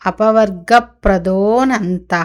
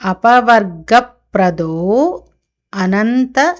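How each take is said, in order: First: The words merge and the initial vowel drops. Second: The two words are said separately, vowel kept.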